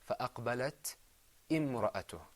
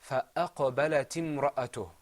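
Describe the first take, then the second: First: A stop and glottal catch begin the second word. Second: The words run together with no glottal catch. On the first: The speaker calls it wrong. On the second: The speaker calls it right.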